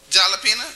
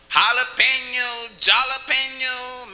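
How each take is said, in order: First: Jalapeno said with a hard j, like "jah-la-pee-no"; mispronounced jalapeno. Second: Jalapeno said slowly with an h sound, "ha-la-pen-yo"; slow down and open Jalapeno with an h, ending in "pen-yo"; proper Spanish jalapeno. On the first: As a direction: start Jalapeno with a j sound, not an h. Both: Shown as a demonstration. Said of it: "how do you say the word then".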